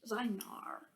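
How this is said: It ends with a Beijing-style R sound.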